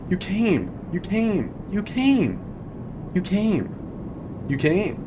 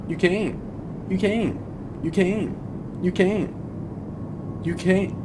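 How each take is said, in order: No difference in how they are said.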